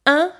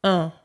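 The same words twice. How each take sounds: First: "Un" said as the nasal in "matin"; isolated "Un", unrounded as in "vin"; front nasal vowel. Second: "un" said as in "lundi"; isolated "un" with rounded lips, through the nose; rounded nasal vowel. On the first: Teacher replays the difference, "Un" as in "matin". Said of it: "As in matin". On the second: Teacher replays the difference, "un" as in "lundi". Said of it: "un, as in lundi". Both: Shown as a demonstration.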